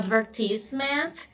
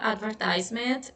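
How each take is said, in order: First: It is said with a British pronunciation. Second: It is said with an American pronunciation. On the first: "A pronúncia britânica" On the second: "E a pronúncia americana"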